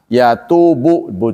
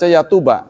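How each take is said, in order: First: The word ends with a 'u' vowel. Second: The word ends with an 'a' vowel. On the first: This is the reading of most scholars. "yatubu, bacanya bu" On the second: This is a minority reading. "tapi ada yang membaca yatuba"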